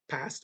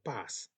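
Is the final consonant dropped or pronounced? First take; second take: pronounced; dropped. First: The final consonant is fully pronounced. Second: The final consonant is dropped.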